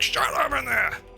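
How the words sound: It sounds harsh and aggressive.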